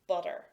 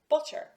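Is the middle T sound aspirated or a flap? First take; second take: flap; aspirated. First: The middle T is a quick flap. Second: The middle T is aspirated with a puff. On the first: This is the usual, everyday way of speaking. "I will use that flap sound" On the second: This is used in formal situations. "I will shift and use the aspirated T sound"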